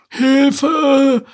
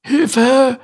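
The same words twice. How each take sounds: First: Very high, loud drawn-out shriek; high screeched cry. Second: High, loud strangled cry; high loud choked croak. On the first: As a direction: turtle screeching for help. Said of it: "kreischte Larissa". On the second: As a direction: croak for help with a rope round the neck. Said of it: "krächzte er". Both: Acted.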